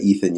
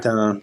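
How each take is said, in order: First: The name is said the American way, with th. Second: The name is said the French way, with t. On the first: This is the Americanized way to say it. "Ethan's the Americanized way to say it" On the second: This is how French commentators say it. "it's funny hearing the French commentators"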